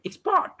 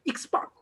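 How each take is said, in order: First: Expert as a verb, ex-PERT, second syllable lengthened; verb stress. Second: Expert as a noun, EX-pert, first syllable stressed. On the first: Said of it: "Meaning of verb". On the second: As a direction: hit the start of expert, short second syllable. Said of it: "it works as a noun". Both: Shown as a demonstration.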